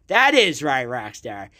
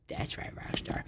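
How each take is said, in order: First: Said in the usual way. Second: Barely audible whispered echo. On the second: Pretend. Podcaster echoing his own answer to Rockstar, whispered. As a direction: repeat it under your breath, voiceless.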